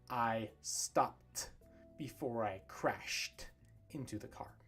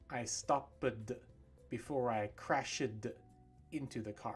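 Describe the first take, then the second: First: The -ed endings blend into one syllable. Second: The -ed endings are said as extra syllables. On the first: The speaker calls it right. "What does sound natural is" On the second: The speaker calls it wrong. "You don't want to say"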